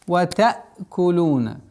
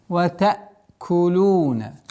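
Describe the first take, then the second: The two takes are said the same way.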